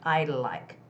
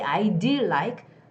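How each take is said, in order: First: The D is subtle and blended into the L. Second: The D is pronounced as a separate, full sound. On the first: The speaker calls it right. "it's more like I'd like" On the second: The speaker calls it wrong. "you don't say I do like"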